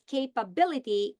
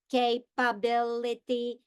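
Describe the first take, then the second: First: Said in the usual way. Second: "capability" in five separate, even-pitched syllables; robot syllable breaks. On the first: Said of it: "I can break words into syllables". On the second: Shown as a demonstration. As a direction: say "capability" robotically as ca-pa-bil-i-ty, slowly. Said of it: "If I speak like a robot".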